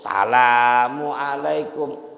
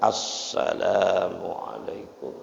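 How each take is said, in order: First: The opening 'as' sound is dropped. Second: The opening 'as' sound is clearly heard. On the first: The speaker calls it wrong. "Enggak benar" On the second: The speaker calls it right. "Mesti kedengeran tuh, dibaca"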